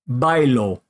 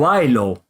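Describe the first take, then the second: First: The b is hard, with the lips closing. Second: The b is soft, with the lips not touching.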